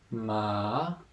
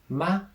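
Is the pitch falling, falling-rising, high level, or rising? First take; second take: falling-rising; high level. First: The pitch dips down, then rises. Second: The pitch stays high and level. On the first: "the third tone, ma, down, up" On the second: "first tone"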